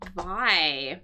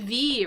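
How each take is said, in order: First: The word rhymes with 'sky'. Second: The word rhymes with 'see'. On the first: The speaker calls it right. "our pronunciation here is actually vie" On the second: The speaker calls it wrong. "it looks like it could be V"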